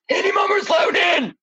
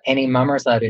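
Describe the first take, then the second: First: It is spoken while breathing in, like a mummer. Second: It is spoken normally while breathing out.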